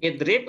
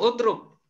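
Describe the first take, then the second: First: The word starts with an i vowel. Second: The word starts with a u vowel. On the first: The speaker calls it right. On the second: The speaker calls it wrong.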